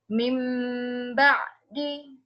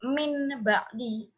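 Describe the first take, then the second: First: The nasal before ba'di is an m sound. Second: The nasal before ba'di is an n sound. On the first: The speaker calls it right. "ini merupakan bacaan iqlab" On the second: The speaker calls it wrong. "supaya tidak dibaca min ba'di"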